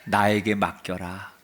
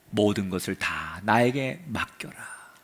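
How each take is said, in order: First: Said in the usual way. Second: Slow, whispered, falling on 나에게; tender whisper. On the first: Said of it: "따라합시다". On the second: Acted. God whispering comfort to Elijah. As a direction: breathe 맡겨라 softly like a promise. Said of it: "뭐라고 말하느냐".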